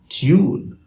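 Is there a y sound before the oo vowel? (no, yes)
yes. A y sound comes before the oo vowel. "a standard British English speaker would say"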